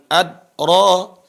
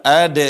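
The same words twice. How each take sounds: First: "adra" with a dead, unreleased d before ra; dal without qalqalah. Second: "ad" loud, with the d bounced into a brief echo; qalqalah dal. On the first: Teacher shows the error, "adra" with no echo on the d. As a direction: stop the d of "adra" with no bounce. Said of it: "bukan adra". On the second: Teacher shows the dal, "ad" with a bouncing release. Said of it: "Perhatikan dal". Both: Shown as a demonstration.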